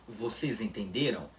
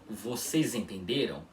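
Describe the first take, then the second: Both takes have the same delivery.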